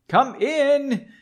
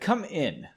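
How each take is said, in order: First: It is said loudly, as an exclamation. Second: It is said flatly, without exclamation.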